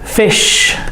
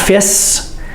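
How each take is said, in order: First: The word ends with an sh sound. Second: The word ends with a plain s sound. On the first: The speaker calls it right. "S H" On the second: The speaker calls it wrong. "We need to hear the S. It's not fis"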